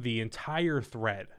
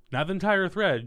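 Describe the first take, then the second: First: Said in the usual way. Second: Entire hit higher and louder; "entire" punched up, rest falling; stress on entire. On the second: Shown as a demonstration. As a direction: lean hard on "entire".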